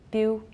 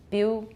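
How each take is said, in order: No difference in how they are said.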